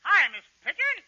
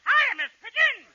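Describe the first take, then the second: First: Said in the usual way. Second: Put-on high, loud little-boy greeting; put-on child's voice; high kid voice. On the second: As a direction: pitch it up like a small boy. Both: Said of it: "Oh, high voice".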